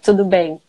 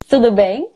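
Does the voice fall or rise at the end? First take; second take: falls; rises. First: The voice falls at the end like a statement. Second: The voice rises at the end like a question. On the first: Everything is fine. "It's okay" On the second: Asking whether the other person is okay. "You're asking the person, are you okay?"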